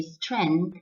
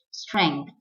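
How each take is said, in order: First: Strength as STRENTH, no ng; plain n in strength; wrong pronunciation. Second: Strength as STRENG-th; correct pronunciation. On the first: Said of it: "Some people might say". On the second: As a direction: clear ng inside strength. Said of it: "the correct pronunciation is strength". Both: Shown as a demonstration.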